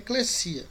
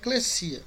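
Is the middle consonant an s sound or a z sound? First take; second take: s sound; s sound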